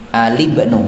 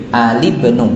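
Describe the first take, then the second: The two takes are said the same way.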